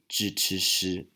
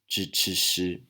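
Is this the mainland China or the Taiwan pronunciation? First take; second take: Taiwan; Taiwan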